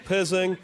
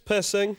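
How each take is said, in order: First: The name is said with a buzzing z sound. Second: The name is said with a short vowel and hissing s. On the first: The speaker calls it wrong. "or Pizzing. It's not" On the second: The speaker calls it right. "it's Pissing"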